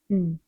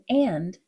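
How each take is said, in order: First: It is reduced to a short 'n' sound. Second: It is said as a full word.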